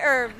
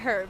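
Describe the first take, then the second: First: The h at the start is silent. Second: The h at the start is pronounced. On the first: "We say herbs" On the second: "You guys say herbs. ... With a H"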